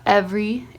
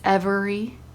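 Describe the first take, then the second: First: The word is said with two syllables. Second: The word is said with three syllables. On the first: The speaker calls it wrong. "it's not every" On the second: The speaker calls it right. "It's three syllables, not two"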